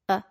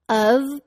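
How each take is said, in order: First: The word is only a schwa sound. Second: The word is pronounced with a full vowel.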